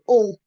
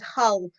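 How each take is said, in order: First: The word begins with a vowel, no H. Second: The word begins with an audible H sound. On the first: This is how locals say the name. The speaker calls it right. "you're not supposed to pronounce the H" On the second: This is how outsiders say the name. The speaker calls it wrong. "for non native speakers is is Hull"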